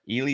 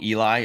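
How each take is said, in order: First: The final vowel sounds like 'ee'. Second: The final vowel sounds like 'eye'. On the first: The speaker calls it right. "You got to make the I sound like an E" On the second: The speaker calls it wrong. "am I saying it wrong?"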